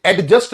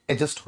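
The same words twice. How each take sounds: First: एडजस्ट said slowly with a clear d sound, ad-just; wrong pronunciation with d. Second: एडजस्ट said as a-just, with the d silent. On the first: Teacher showing students the mistake, pronouncing the d in एडजस्ट. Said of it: "एडजस्ट होता है". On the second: Teacher giving students the correct form, d silent in एडजस्ट. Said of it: "एडजस्ट नहीं होता". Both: Shown as a demonstration.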